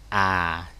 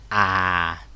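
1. Cao độ thấp và xuống nhẹ. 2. Cao độ thấp và xuống nhẹ.

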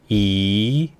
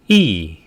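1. 음이 중간에서 높게 올라가요. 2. 음이 높은 데서 확 떨어져요. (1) "이성은 올려주세요" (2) "사성은 일성 높이에서 때려줍니다"

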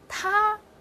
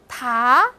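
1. 音高保持在高处，很平。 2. 音高从中到高上升。

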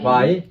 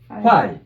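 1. 음높이가 음절을 지나며 올라갑니다. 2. 음높이가 음절을 지나며 내려갑니다. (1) "요것은 이성이야" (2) "두 개 다 후아이로 되죠. 성조만 다르죠"

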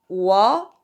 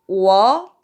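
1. 2성으로 말해요. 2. 2성으로 말해요.

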